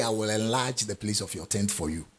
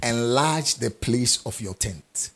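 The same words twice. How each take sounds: First: Quiet, offhand reading of the verse the wrong way; mock wrong reading. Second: Enlarge stretched slow and weighted; stress on enlarge. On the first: Preacher contrasts with the real verse, softer and offhand. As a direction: read it softer, as the version God never said. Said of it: "He didn't say". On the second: Preacher tells the congregation it is their job, slow and weighted. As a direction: lean hard on enlarge, unhurried. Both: Shown as a demonstration.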